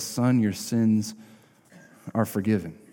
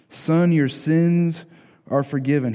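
First: Gently, like to a hurting son; tender. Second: "Son, your sins" slow, higher and emphatic; each word "Son", "sins" stretched and proclaimed. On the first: He looks at the man. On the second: Jesus speaks to the paralytic. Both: Acted.

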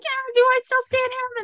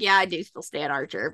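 First: High-pitched mock doubt; doubting self-question. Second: Lower, softer self-answer; resigned admission. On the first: Fan questioning her own loyalty to Archer, high and doubtful. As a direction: ask yourself in a much higher voice. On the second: Retold or imitated. Fan admitting she still likes Archer, low and resigned. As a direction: drop down and concede it.

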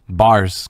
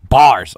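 First: Bars drawn out slowly; slow punchline. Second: Bars called out high and loud; loud proud exclamation. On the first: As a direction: stretch out the word bars. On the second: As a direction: shout Bars like a proud punchline. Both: Shown as a demonstration. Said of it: "I'm kidding".

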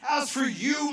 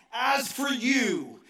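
First: "as for you," flung out higher and louder; rising shout. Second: Very slow, weighted "As for you,"; slow emphatic reading. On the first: Pastor repeating the verse to his city church, now shouting it. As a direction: lift "as for you," into a cry. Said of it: "repeated scripture, second take". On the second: Pastor reading Ephesians aloud, slow and weighty. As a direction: lean on each word of "As for you," slowly. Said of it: "repeated scripture, first take". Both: Shown as a demonstration.

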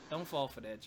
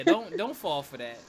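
First: Said in the usual way. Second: Emphatic warning. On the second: Real, not acted. Warning the audience.

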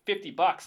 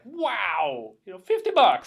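First: Said in the usual way. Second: Hammed-up excited cabbie, high and loud; imitating an overexcited cab driver; super excited. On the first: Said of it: "So Nick says". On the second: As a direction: burst out in mock amazement. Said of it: "He's, like, super excited".

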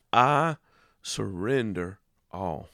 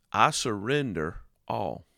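First: Emphatic I before a slow surrender all; stress on I. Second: Said in the usual way. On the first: Shown as a demonstration. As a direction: hit I, then ease surrender all out slowly. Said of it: "stressed repeat". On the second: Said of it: "first take".

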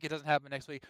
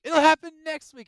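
First: Said in the usual way. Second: High, loud sing-song leaker; mocking rumor voice. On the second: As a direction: mimic an overconfident leaker. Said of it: "Oh, direct's gonna be coming up soon".

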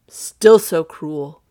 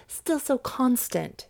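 First: Loud, slow, heavy reproach; reproachful Duke. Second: Higher, slow, measured reply; cool lady's retort. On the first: Duke to the woman refusing him, slow reproach. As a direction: draw out the complaint at full weight. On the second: Olivia answering the Duke's suit, slow retort. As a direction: answer slowly in a lifted voice. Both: Acted.

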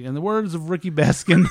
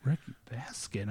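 First: Raised, rising speech-maker's delivery; retold speech quote. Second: Very soft, stunned echo of the name; hushed reaction. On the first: Wedding guest quoting a coworker in his speech, announcing. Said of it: "It was like, it was like". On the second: Retold or imitated. Listener hearing the wrong name at a wedding, hushed. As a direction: murmur the name in disbelief. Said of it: "I was like".

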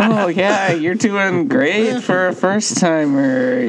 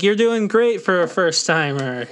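First: Slow, drawn-out mock praise; imitating a condescending pat on the head; mocking patronizing. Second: High, sing-song praise, talking down; patronizing. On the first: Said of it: "the way Tanner said that made it sound so patronizing". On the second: Retold or imitated. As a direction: pat them on the head with it. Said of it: "made it sound so patronizing".

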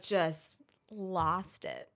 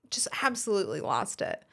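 First: Slow breathy whisper, barely voiced. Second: Said in the usual way. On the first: Real, not acted. Telling friends how she broke down, slow whisper. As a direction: let it drop to a hushed, drawn-out whisper. Retelling breaking down in tears.

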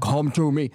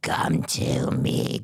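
First: Flat, tame demon line with no menace; unscary demon voice. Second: Very low, slow, whispered demon voice; exorcist voice. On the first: Retold or imitated. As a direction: say it like a demon who isn't scary at all. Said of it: "the voices are not scary". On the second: Shown as a demonstration. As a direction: breathe it out like a possessing demon, very slow. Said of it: "Do an exorcist voice".

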